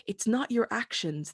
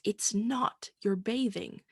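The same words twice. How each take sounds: First: "your" pushed forward, falling after; stress on your. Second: "not" leaned on, drawn out and falling; stress on not. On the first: Preacher telling Naaman it's not his actions, stressing "your". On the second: Preacher to congregation, leaning on "not" in "it's not your bathing". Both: Acted.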